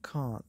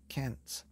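First: "can't" with a long open ah, like "cahnt"; "can't" as cahnt, the British way. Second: "can't" with a flat short a, as in "cat"; "can't" flat and short, the American way. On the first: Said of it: "Instead of can't". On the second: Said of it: "they call it can't". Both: Shown as a demonstration.

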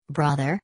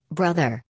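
First: Brother? lifted into a puzzled rising question; startled echo of Brother? with a rising tune; surprised questioning rise. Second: Said in the usual way. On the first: A narrator's reading. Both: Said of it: "this was surprising".

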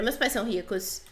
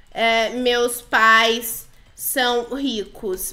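First: Said in the usual way. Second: "meus pais são ricos" drawn out slowly, word by word; slow dictation. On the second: Pretend. Player types her claim "meus pais são ricos" to the girls, slowly dictating. Escreve no chat, falando devagar.

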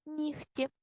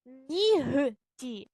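First: Нігті in one piece with г said as х, "nikhti"; spoken pronunciation. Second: Нігті slowly in parts with a voiced г, "NI-h-ti"; spelling pronunciation. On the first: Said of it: "а вимовляємо". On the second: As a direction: dictate нігті as written. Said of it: "ми пишемо". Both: Shown as a demonstration.

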